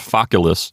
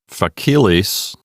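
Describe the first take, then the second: First: The stress is on the first syllable. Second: The stress is on the second syllable. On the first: The speaker calls it right. "We have it on the first syllable" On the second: The speaker calls it wrong. "It's not facilis. We don't have the accent on the second syllable"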